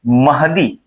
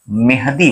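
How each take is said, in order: First: The first vowel is a short 'a'. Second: The first vowel is changed to 'e'. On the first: The speaker calls it right. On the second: The speaker calls it wrong.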